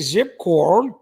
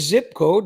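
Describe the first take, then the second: First: The last word is said as 'cord'. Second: The last word is said as 'code'. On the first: The speaker calls it wrong. "they say zip cord" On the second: The speaker calls it right. "scammers don't say zip code"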